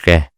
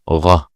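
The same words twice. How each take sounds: First: The consonant sounds light and thin. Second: The consonant sounds heavy and deep. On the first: The speaker calls it wrong. "Don't say غ" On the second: The speaker calls it right. "Say غ"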